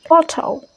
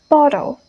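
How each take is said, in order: First: The T is pronounced strongly and crisply. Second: The T sounds soft, like a D.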